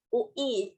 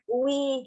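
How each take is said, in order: First: Each letter is said clearly and separately. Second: The letters are dragged and run together. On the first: The speaker calls it right. "jelas gitu satu-satu per huruf" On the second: The speaker calls it wrong. "bukan diseret"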